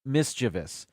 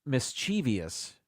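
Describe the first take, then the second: First: MISCHIEVOUS as three syllables, MIS-chi-vus; correct pronunciation. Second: MISCHIEVOUS with extra ee, mis-CHEE-vee-us; common mispronunciation. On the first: Video host correcting a common error, MISCHIEVOUS said MIS-chi-vus. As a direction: stress the first syllable of MISCHIEVOUS, no ee after V. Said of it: "It's actually pronounced". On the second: Video host showing what people say, mispronounced MISCHIEVOUS as mis-CHEE-vee-us. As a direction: slowly say MISCHIEVOUS as four syllables, stress on chee. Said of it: "People say". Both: Shown as a demonstration.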